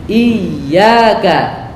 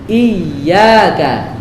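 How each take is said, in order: The two takes are said the same way.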